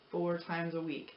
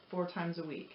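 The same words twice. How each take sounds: The two takes are said the same way.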